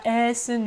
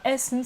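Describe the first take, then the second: First: The first vowel is long. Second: The first vowel is short. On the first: The speaker calls it wrong. "c'est pas Essen" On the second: The speaker calls it right. "c'est court"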